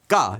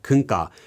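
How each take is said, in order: First: It is reduced to a single quick syllable. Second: It is shortened to three syllables. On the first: "or even just 까 if it's said very quickly" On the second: "it's often shortened in casual speech to"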